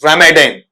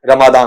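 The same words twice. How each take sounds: First: "रमजान" as ra-muh-dain; English pronunciation. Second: "रमादान" with long open "maa" and "daan"; Hindi-Urdu pronunciation. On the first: Teacher naming the ninth Islamic month, "रमजान" as ra-muh-dain, English pronunciation. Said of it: "ऐसा बोलते हैं". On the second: Teacher giving the local name, "रमादान" as ra-maa-daan, Hindi-Urdu pronunciation. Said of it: "यहां आते आते क्या होता है". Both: Shown as a demonstration.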